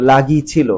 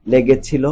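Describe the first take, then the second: First: "লাগিয়েছিল" squeezed to la-gi-chi-lo; dialect form. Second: "লেগেছিল" as le-ge-chi-lo; standard pronunciation. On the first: Teacher quotes the exercise word, "লাগিয়েছিল" as dialect la-gi-chi-lo. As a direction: say "লাগিয়েছিল" with a, then i. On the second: Teacher corrects for pupils, standard "লেগেছিল" as le-ge-chi-lo. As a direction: say "লেগেছিল" with e in both first syllables. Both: Shown as a demonstration. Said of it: "এরকম উচ্চারণ হবে".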